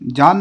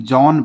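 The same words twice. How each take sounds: First: जॉन mispronounced as "jaan", with a long aa vowel; wrong reading of John. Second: जॉन with a rounded "aw" vowel, as in English John; correct reading of John. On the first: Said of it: "जॉन पढ़ेंगे". (जॉन का ग़लत उच्चारण, "जान" जैसा) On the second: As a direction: say जॉन as "jawn", not "jaan". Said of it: "जॉन नहीं". (जॉन का सही उच्चारण, गोल "ऑ" के साथ) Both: Shown as a demonstration.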